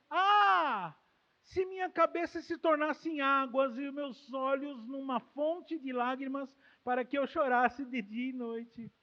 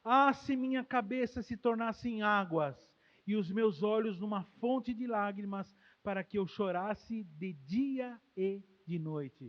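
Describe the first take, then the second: First: Louder, yearning recitation; fervent prayer. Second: Slow solemn recitation; reading the prayer. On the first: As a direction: pray it with longing. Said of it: "ele desenvolve um sonho no coração dele". (oração fervorosa e mais alta) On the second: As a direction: read the verse slowly, reverently. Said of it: "Olha a oração de Jeremias". (leitura solene e lenta da oração) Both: Acted.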